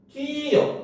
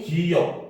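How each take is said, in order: First: The word is said in a high pitch. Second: The word is said in a low pitch. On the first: "어떤 사람은 높게 얘기해요" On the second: "기억 소리가 낮게 이렇게 발음이 됐죠"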